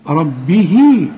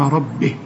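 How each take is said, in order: First: The final vowel is lengthened into the next word. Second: The final vowel is cut short at a stop. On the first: The reciter continues without stopping. "تمدها عند الوصل حركتين" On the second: The reciter stops at this word. "إذا وقفت تقول ولمن خاف مقام ربه بدون مد"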